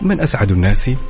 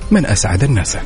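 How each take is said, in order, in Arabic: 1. تُقال كسؤال. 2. تُقال كجملة خبرية. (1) "هذا السؤال" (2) "والإجابة"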